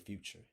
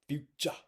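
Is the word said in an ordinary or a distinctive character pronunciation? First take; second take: ordinary; distinctive character. First: The word has an ordinary, everyday pronunciation. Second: The word has a distinctive, stylized character pronunciation. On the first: This is not how the character talks. The speaker calls it wrong. "he doesn't say future" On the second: This is how the character talks. The speaker calls it right. "He says future"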